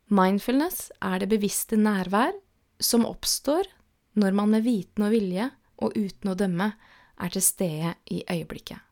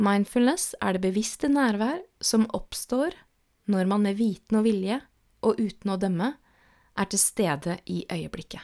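The two takes are said the same way.

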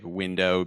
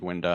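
First: The final vowel is a full O sound. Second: The final vowel is reduced toward an A sound. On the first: The speaker calls it right. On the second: The speaker calls it wrong.

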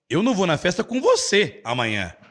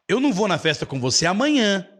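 First: The stress is on the word você. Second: The stress is on the word amanhã.

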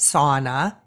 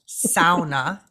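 First: It is said with an English pronunciation. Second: It is said with a Finnish pronunciation. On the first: The speaker calls it wrong. "mispronounced as sauna" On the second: The speaker calls it right. "it's a Finnish word"

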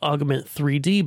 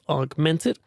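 First: The name ends with the letters 'three D'. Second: The name ends with the syllable '-ed'. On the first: The speaker calls it wrong. "it looks like Augment 3D" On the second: The speaker calls it right. "they pronounce it as Augmented"

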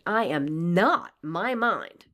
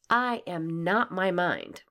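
First: It is said with strong conviction. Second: It is said with mild conviction.

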